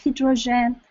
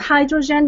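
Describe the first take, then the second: First: Hydrogen is pronounced with a French-style sound. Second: Hydrogen is pronounced with an English-style sound. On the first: "still pronouncing it in the French uh, way" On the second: "maybe you say in English"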